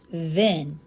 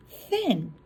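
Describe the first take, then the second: First: Then with a buzzing voiced th. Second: Thin said slowly with a breathy unvoiced th. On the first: Teacher showing the class the right voiced then. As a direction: say then with the tongue vibrating. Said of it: "We wanna say then". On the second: Teacher showing the class the wrong unvoiced thin. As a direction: stretch out thin with air and no buzz. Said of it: "We don't wanna say thin". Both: Shown as a demonstration.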